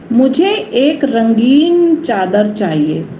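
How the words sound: The stress is on रंगीन.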